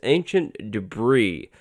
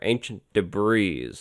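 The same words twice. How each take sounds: First: Debris ends without any s sound. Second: Debris ends with a pronounced s sound. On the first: The speaker calls it right. "Like, like no S" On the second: The speaker calls it wrong. "I kind of got toasted on Friday's video for saying that"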